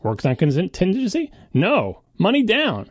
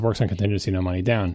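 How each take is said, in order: First: It rises on 'contingency' and pauses after 'no'. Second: It runs smoothly through 'no money down'.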